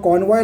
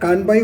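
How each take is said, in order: First: The word ends with a 'voy' sound. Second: The word ends with a 'bai' sound. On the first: The speaker calls it right. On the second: The speaker calls it wrong.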